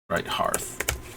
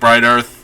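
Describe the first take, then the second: First: The h sound before 'earth' is clearly pronounced. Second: The h sound before 'earth' is left out. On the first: The speaker calls it right. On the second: The speaker calls it wrong.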